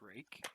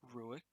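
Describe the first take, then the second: First: The name sounds like rake, one syllable. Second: The name sounds like roo-ik, two syllables. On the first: The speaker calls it right. "it's rake" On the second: The speaker calls it wrong. "It's not Ruik"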